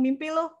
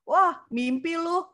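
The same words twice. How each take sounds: First: Quick mock. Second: Slow, drawn-out mocking "Wah, mimpi lu", pitched higher; mocking scoff. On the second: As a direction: scoff at the dream, stretching it out slowly. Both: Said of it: "Orang ngomong".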